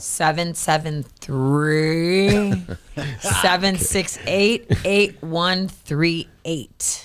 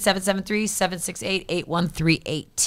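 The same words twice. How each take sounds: First: The number is said slowly. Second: The number is said at normal speed.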